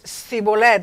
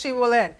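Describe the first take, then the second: First: The word begins with an s sound. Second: The word begins with a sh sound. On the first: The speaker comes from the east side of the Jordan. The speaker calls it wrong. "They only could pronounce the sin, the S" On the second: The speaker comes from the west side of the Jordan. The speaker calls it right. "now pronounce Shibolet"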